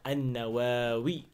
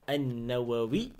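First: The vowel after the first w is long. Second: The vowel after the first w is short.

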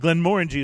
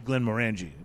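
First: The stress falls on the second syllable, more. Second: The stress falls on a syllable other than the second. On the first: The speaker calls it right. "Glenmorangie is the way that you say it" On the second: The speaker calls it wrong. "typically American to say Glenmorangie, which is what I've been saying"

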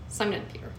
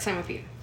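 First: The phrase is said slowly, 'and' clearly heard. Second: The phrase is said fast, 'and' nearly lost.

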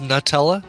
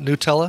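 First: The first syllable sounds like the word nut. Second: The first syllable does not sound like nut. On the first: The speaker calls it right. "It is Nutella, ... it's nut. I think the nut part is supposed to be emphasized" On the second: The speaker calls it wrong. "not Nutella"

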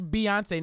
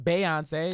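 First: The first syllable sounds like 'bee'. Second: The first syllable sounds like 'bay'. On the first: The speaker calls it right. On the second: The speaker calls it wrong.

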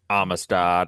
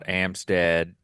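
First: The name is said with three syllables. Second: The name is said with two syllables.

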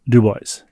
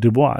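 First: The name ends rhyming with 'boys'. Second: The name ends in a French 'bwah' sound. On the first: The speaker calls it right. "rhymes with Sioux Boys" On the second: The speaker calls it wrong. "It's not Dubois"

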